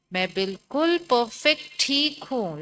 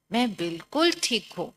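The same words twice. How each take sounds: First: Slow and firm, बिल्कुल punched hard; confident reply. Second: Said in the usual way. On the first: Shown as a demonstration. Teacher showing children the right answer: slow, बिल्कुल stressed. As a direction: hit बिल्कुल hard and draw the line out slowly, assured. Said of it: "आप क्या बोलोगे?". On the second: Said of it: "लिखो".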